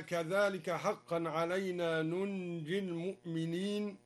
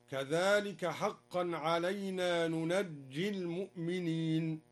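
First: Said in the usual way. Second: "ننجي" said nunajji, not nunji; fatha and doubled jim. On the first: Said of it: "قرأ الدوري بفتح النون". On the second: Shown as a demonstration. Teacher showing al-Duri's reading, "ننجي" as nunajji. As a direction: recite "ننجي" with open second n and doubled j. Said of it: "وتشديد الجيم هكذا".

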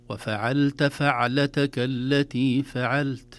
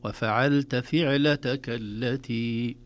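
First: فعلتك with fatha on the ف, slow and chanted; correct recitation. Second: فعلتك with kasra on the ف, slow chant; mistaken reading. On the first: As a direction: chant فعلتك with open fa, slowly. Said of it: "الصحيح بفتح الفاء". (بفتح الفاء، ترتيل بطيء) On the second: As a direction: say فعلتك with the fa as fi, the wrong way. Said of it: "بكسر الفاء". (بكسر الفاء، قراءة خاطئة) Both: Shown as a demonstration.

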